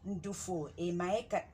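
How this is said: It is said as a statement.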